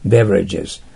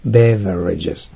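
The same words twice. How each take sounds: First: Beverages as a model word, teeth-on-lip v; lip-bitten v. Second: Beverages drawn out slowly, with an indistinct vowel after the v; slow model beverages with a weak, vague middle syllable. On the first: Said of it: "theは下唇を噛んでください". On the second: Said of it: "るいは曖昧な発音してください". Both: Shown as a demonstration.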